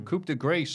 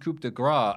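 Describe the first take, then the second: First: The final consonant of grâce is pronounced. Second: The final consonant of grâce is silent. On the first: "on the commentary, they do coup de grâce" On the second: "I always assumed it was coup de grâce, and I the CE was silent"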